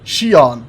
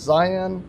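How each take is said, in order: First: The name sounds like shee-ahn. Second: The name sounds like the word Zion. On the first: The speaker calls it right. "There we go. That's how you say it" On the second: The speaker calls it wrong. "It's not Zion"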